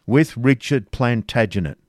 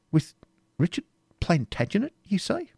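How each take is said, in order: First: With Richard Plantagenet stated flat and sure, falling at the end; firm confirmation. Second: Incredulous. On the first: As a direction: confirm it, no doubt left. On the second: Incredulous echoing question. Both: A narrator's reading.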